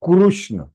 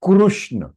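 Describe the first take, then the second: Both takes have the same delivery.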